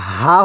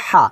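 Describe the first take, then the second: First: হা as an ordinary loose h; wrong ha. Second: হা thin and pressed from mid-throat; correct ha. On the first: Teacher showing what not to say, হা with plain h. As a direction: breathe out হা without squeezing the throat. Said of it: "এটাও কিন্তু হা হবে না". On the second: Teacher showing the right letter, হা pressed and fine. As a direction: squeeze the throat for the h of হা. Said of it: "চিকুন করে চাপ দিয়ে". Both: Shown as a demonstration.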